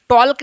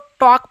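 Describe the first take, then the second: First: The L sound is pronounced in the word. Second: The L sound is left out of the word. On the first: The speaker calls it wrong. "टॉल्क नहीं पढ़िएगा" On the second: The speaker calls it right. "टॉक पढ़िएगा, एल silent रहेगा"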